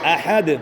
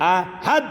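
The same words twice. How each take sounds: First: The final d ends with an echoing bounce. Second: The final d ends flat without a bounce. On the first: The speaker calls it right. "প্রতিধ্বনি সৃষ্টি করে কলকলা" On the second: The speaker calls it wrong. "ভুল বলেন"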